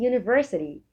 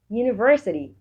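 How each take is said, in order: Both takes have the same delivery.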